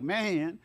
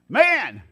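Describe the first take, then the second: First: It is said in a relaxed, casual hippie way. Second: It is said in a sharp, stern way.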